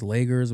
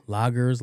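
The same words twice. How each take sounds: First: Lagers said with a long "ay", LAY-gerz. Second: Lagers said slowly with an open "ah", LAH-gerz. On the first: Trying the other name for the beer, lagers said as LAY-gerz. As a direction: say lagers to rhyme with wagers. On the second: Unsure of the beer's name, lagers said as LAH-gerz. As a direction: say lagers with first vowel as in father. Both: Shown as a demonstration. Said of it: "whatever they're called".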